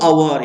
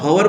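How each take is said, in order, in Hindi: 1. यह शब्द सीधे स्वर से शुरू होता है। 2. इस शब्द की शुरुआत h की आवाज़ से होती है। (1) "हम इसको बोलते हैं अवर" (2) "हवर बोलते क्या बच्चों, नहीं"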